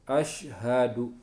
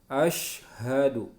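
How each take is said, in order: Both takes have the same delivery.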